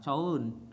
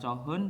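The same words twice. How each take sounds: First: The h sound is dropped, read as joeun. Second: The h sound is clearly pronounced. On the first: The speaker calls it right. "hitnya juga hilang" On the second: The speaker calls it wrong.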